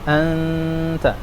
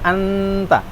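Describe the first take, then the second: First: The n is held as a nasal hum. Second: The n is cut short before the t. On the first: The speaker calls it right. "Tetap dengungnya dibaca juga" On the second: The speaker calls it wrong. "bukan anta. Itu kan langsung ke ta itu"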